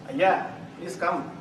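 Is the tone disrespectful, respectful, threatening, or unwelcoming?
unwelcoming. The voice sounds cold and unwelcoming. The person is not wanted here. "Please don't come"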